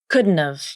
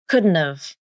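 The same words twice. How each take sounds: First: The T is a nasal flap between vowels. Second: The same.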